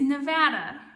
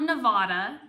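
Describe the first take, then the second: First: The 'va' vowel sounds like the one in 'rad'. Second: The 'va' vowel does not sound like 'rad'. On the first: The speaker calls it right. "it is Nevada" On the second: The speaker calls it wrong. "which is not Nevada"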